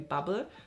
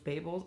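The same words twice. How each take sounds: First: The first vowel is short and quick. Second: The first vowel is long and drawn out. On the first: This is how it would be written with a double B. "with a double B, that would be Babel. Then you say it quickly" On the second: This is how it is written with a single B. "it would be a long A. So in my head, this is Babel"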